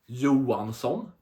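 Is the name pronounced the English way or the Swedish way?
Swedish. The name is said with a Swedish pronunciation. The speaker calls it right. "We say Johansson"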